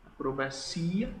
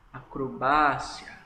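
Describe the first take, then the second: First: Acrobacia with CI stressed and rising; Portuguese stress. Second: Acrobácia slowly, BA punched; Spanish stress. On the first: Teacher repeating normal Portuguese, acrobacia stressed on CI. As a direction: lean on CI in acrobacia, lifting the ending. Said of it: "Eu falo em português normal". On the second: Teacher repeating the Spanish word, acrobácia stressed on BA. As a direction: draw out and hit BA in acrobácia. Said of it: "no espanhol já é diferente". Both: Shown as a demonstration.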